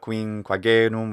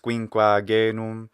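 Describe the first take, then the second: First: The A vowel is said short. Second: The A vowel is held long. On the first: The speaker calls it wrong. "not uh, quinquagenum, which it sounds closer to" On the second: The speaker calls it right. "The a in quinquagenum sounds too short. It's quinquagenum"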